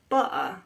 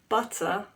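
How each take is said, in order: First: The middle T is a glottal stop. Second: The middle T is a clear T. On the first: "It happens with a lot of words" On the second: "instead of butter"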